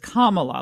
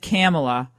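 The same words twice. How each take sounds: First: The first part sounds like the word 'comma'. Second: The first part does not sound like 'comma'. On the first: The speaker calls it right. "the correct way to pronounce it, which is Kamala, like the punctuation mark" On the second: The speaker calls it wrong. "then I did Kamala"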